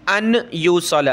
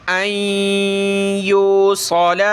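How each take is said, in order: First: अन यूसल with the न said fully, not merged; wrong clear nun. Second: अय्यूसल slow, with a nasal hum, not a doubled य; nasal merge. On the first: Teacher showing students the wrong clear nun. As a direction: pronounce the न of अन plainly, the wrong way. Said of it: "अन यूसल नहीं पढ़ सकते". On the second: Teacher showing students the right nasal merge. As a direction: hum through the nose into अय्यूसल slowly. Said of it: "अय्यूसल भी आपने नहीं पढ़ना". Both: Shown as a demonstration.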